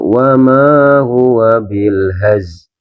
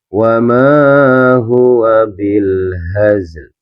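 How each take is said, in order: First: The final L sound is dropped entirely. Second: The final L sound is clearly pronounced. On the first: The speaker calls it wrong. "Alnya hilang, tapi nggak boleh" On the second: The speaker calls it right. "Lamnya ini tetap terbaca"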